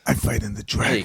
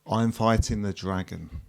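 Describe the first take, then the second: First: The line is said dramatically, with acted intensity. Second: The line is said flatly, without dramatic energy. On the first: The speaker calls it right. "Ten times better already" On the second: The speaker calls it wrong. "You're not an actor"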